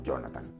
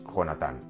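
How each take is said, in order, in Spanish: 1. El nombre se pronuncia con sonidos parecidos a los ingleses. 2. El nombre se pronuncia con sonidos españoles. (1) "y no Jonathan" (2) "Jonatán es Jonatán"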